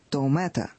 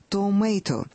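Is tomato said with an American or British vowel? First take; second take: British; American. First: The middle vowel sounds like 'ah'. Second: The middle vowel sounds like 'ay'. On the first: This is how the speaker's side says it. "«я томета»" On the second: This is how Americans say it. "Они говорят «томейто»"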